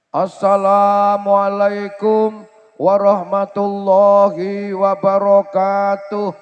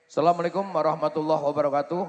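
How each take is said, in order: First: The greeting is shouted as loudly as possible. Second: The greeting is said at a calm, normal volume. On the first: Someone has died. "bengok sak kayange" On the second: It is an ordinary announcement, not a death. "nek pengumuman ora mati ora ngono kuwi"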